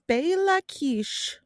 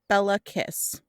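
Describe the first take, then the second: First: The name is said the native Hungarian way. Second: The name is said as it is spelled. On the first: The speaker calls it right. "I'm ultimately going to say them correctly once" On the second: The speaker calls it wrong. "That is how it is spelled"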